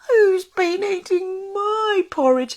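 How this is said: It is said in a high, squealing voice. A small young creature is speaking. "he squealed"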